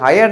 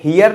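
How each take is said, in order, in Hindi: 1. यह h से शुरू होता है और hire जैसा सुनाई देता है। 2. यह h से शुरू होता है और hear जैसा सुनाई देता है। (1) "हायर नहीं पढ़ते" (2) "हियर नहीं पढ़ते"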